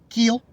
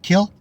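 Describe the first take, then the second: First: The vowel is a long 'ee' sound. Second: The vowel is a short 'i' sound. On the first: The speaker calls it wrong. "not keel" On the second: The speaker calls it right. "the word is kill, isn't it? Kill"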